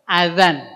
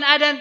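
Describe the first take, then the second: First: The middle consonant is a z sound. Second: The middle consonant is a d sound. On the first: The speaker calls it right. "tapi azan. Azan pakai za" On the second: The speaker calls it wrong. "Bukan adan"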